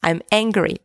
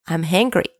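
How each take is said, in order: First: "angry" starting cleanly on the vowel; "angry" clearly begun with an a sound; corrected pronunciation. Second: "angry" with a stray h, like "hangry"; "angry" sounding close to "hungry"; slipped pronunciation. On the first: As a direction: say "angry" with no h in front. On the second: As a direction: let an h slip onto the front of "angry". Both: Real, not acted. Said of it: "Not hungry, sorry".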